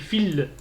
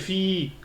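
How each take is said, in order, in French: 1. La voyelle est courte et enchaîne sur le l. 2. La voyelle est longue et isolée. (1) "j'ai dit fil directement" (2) "si je ne l'ai pas allongé, j'ai pas dit fi"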